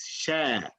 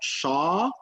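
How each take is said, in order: First: The syllable is pronounced light and thin. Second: The syllable is pronounced heavy and full. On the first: The speaker calls it right. "it's شا. ... Sheen in Arabic is, is a light letter" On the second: The speaker calls it wrong. "It's not شا"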